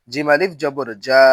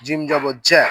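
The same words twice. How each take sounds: First: Final জা with a long a; জা held long; stretched vowel. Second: Final জ্যা with a short vowel; no stretch. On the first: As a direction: draw out the last জা. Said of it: "জবরে আমরা টান দিব". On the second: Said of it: "তখন কোথাও টান দিব না". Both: Shown as a demonstration.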